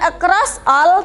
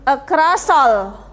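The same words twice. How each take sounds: First: The two words are said separately, not joined. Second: The two words are joined together smoothly. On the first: The speaker calls it wrong. "bukan across all" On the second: The speaker calls it right. "tapi across all"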